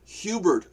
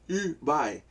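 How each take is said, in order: First: The word starts with an audible H sound. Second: The word starts with no H sound.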